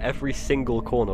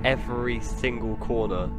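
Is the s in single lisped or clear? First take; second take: clear; lisped. First: The s sound is clear. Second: The s sound is lisped. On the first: The speaker calls it right. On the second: The speaker calls it wrong.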